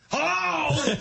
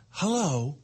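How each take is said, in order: First: High-pitched hollered hello; impatient dad yelling. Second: Even, polite automated hello; lightly imitated machine greeting; car voice assistant. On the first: Retold or imitated. Dad answers the car assistant too early, mock shout. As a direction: imitate dad bellowing before the beep. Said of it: "he's yelling before the beep". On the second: Car's voice assistant greets dad, lightly imitated. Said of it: "she says hello".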